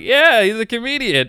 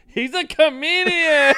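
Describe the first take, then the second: First: Imitated proud girlfriend. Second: Very high, drawn-out cry; hammed-up, stretched-out proclamation; imitated waitress announcing. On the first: Girlfriend tells waitress his job. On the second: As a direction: announce it to the whole restaurant. Waitress announces to whole restaurant.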